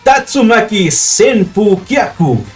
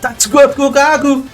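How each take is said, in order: First: Every syllable of the name is clearly pronounced. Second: The name is said fast with syllables merged. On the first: "La pronunciación correcta" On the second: "decía tan rápido que decía"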